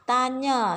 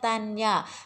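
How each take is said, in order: First: The ny is said as one nasal sound. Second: The n and y are said as separate sounds. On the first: The speaker calls it right. "Baca dia ta tanya" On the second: The speaker calls it wrong. "Salah kalau kita baca tanya"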